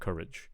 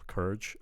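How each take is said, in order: First: The word is said with two clear vowel sounds. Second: The word is said with one vowel sound. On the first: The speaker calls it right. "instead of courage" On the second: The speaker calls it wrong. "it almost sounds like I'm only just hearing one vowel"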